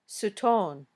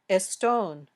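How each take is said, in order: First: An extra vowel splits the s from the t. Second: An extra vowel comes before the st cluster. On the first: "or sutone" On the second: "it might sound like estone"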